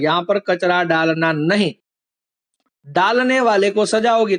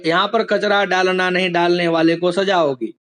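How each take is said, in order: First: There is a pause right after नहीं. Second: It runs on without a clear pause anywhere. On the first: The speaker calls it right. "एक वाक्य में अल्प विराम नहीं के बाद था" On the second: The speaker calls it wrong. "ऐसे ही बोल दूं ... तो कुछ मीनिंग समझ में आएगा नहीं"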